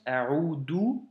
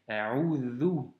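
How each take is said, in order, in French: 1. La consonne du milieu est un son d simple. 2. La consonne du milieu est un son th sonore. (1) "récitent ou du moins prononcent A'udhu" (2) "c'est un vel et donc c'est A'udhu"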